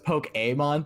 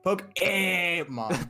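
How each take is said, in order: First: The middle vowel sounds like 'ay'. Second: The middle vowel sounds like 'eh'. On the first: "the like E with like the accent is like an A sound" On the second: "just put like Fonzie right in the middle"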